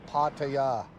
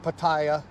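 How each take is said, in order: First: The vowels are ah sounds with no eye sound. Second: The middle syllable has an eye vowel sound. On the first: The speaker calls it right. "that's how they say it" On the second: The speaker calls it wrong. "it's not Pattaya. There's no I sound"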